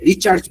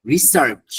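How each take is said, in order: First: রিচার্জ with ch replacing the s; wrong-way demo, রিচার্জ with ch then j; common mispronunciation. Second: রিসার্চ with s, then final ch; correct pronunciation. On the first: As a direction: say "ri-charj" for research, as রিচার্জ. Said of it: "রিসার্চে কি বলে?". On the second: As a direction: say রিসার্চ as "ri-sarch". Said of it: "আরেকটা ভুল মানুষ করে". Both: Shown as a demonstration.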